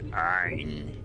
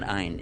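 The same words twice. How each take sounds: First: It begins with a sound deep in the throat. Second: It begins with a plain vowel, no throat sound. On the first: The speaker calls it right. "You got to put a in the back of the throat" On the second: The speaker calls it wrong. "It's not Ein"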